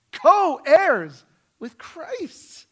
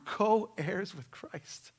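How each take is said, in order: First: "Co-heirs" drawn out loud and high; emphatic repeat. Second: Said in the usual way. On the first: Real, not acted. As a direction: hammer "Co-heirs" slowly, at full preaching force. Preacher repeats the phrase for emphasis.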